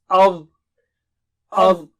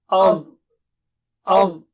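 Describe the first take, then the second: No difference in how they are said.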